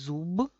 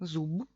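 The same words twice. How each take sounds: First: The final consonant is a voiced b. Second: The same.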